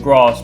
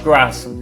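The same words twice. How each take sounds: First: It is said in a southern English accent. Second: It is said in a Midlands English accent. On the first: "rather than grass" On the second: "now because I've been living up in the Midlands... People say like grass"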